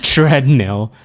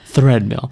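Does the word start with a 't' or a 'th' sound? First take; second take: t; th. First: The word starts with a plain t sound. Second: The word starts with a th sound. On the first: The speaker calls it right. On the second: The speaker calls it wrong.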